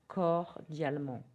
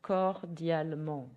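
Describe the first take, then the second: First: Said in the usual way. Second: Slow, careful French; slow model word. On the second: Shown as a demonstration. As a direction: say cordialement slowly. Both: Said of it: "you can say in French".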